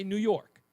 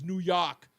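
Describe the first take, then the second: First: "New York" said the speaker's own way; "New York" offered as the contrasting version; own pronunciation. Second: "New York" as someone else says it; "New York" quoted as the disowned version; imitated pronunciation. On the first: Shown as a demonstration. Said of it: "I say New York". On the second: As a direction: mimic another person's "New York". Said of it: "He says".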